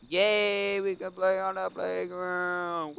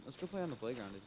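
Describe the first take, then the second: First: Put-on high, loud and slow childlike cheer; sing-song kid voice, much higher and louder; excited little kid. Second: Said in the usual way. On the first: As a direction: squeal it like a thrilled kindergartner. Repeats line as excited child.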